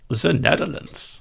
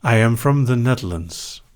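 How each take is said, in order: First: Higher, hammed-up Dutch accent; mock Dutch accent, pitched up; put-on Dutch accent. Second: Said in the usual way. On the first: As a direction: say it again with a thick Dutch accent. Repeats home country in put-on accent.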